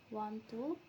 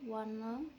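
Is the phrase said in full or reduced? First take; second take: full; reduced. First: Both words are said fully with a clear t. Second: The words blend into one reduced form without t. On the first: "In careful pronunciation" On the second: "in phonic speech the sounds influence one another and are reduced"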